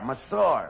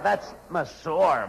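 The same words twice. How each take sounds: First: Said in the usual way. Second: "Monsieur" spelled out very slowly; slow correction. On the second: Shown as a demonstration. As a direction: correct him, dragging out "Monsieur". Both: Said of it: "Oh, Costello, that's Monsieur".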